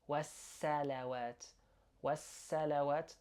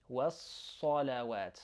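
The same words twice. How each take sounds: First: والصلوات with a thin English S; wrong light S. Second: والصلوات with a heavy emphatic S; heavy Arabic S. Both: Shown as a demonstration. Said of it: "that's wrong".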